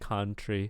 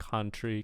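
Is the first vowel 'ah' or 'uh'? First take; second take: ah; ah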